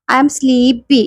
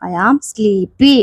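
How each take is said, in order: First: Said in the usual way. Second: Slow drill. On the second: Shown as a demonstration. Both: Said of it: "teacher drilling phrase".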